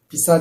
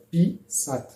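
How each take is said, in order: First: The stress is on the second syllable. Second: The stress is on the first syllable.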